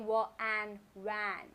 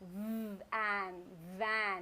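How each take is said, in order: First: The word starts with a w sound. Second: The word starts with a v sound. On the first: The speaker calls it wrong. "I don't say wa, an, van. It sounds literally funny" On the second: The speaker calls it right. "when I said the sound of letter V, I am actually biting my lower lip"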